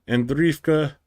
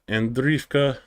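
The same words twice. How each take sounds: Both takes have the same delivery.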